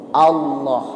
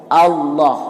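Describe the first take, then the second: No difference in how they are said.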